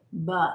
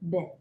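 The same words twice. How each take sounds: First: The b is followed by an added uh sound. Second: The b is said alone with no vowel. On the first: The speaker calls it wrong. "Be careful not to add the uh sound to the end of a phonogram. B does not say B" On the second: The speaker calls it right. "B says B"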